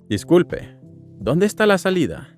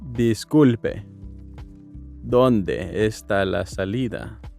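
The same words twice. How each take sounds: First: It is said at normal speed. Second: It is said slowly.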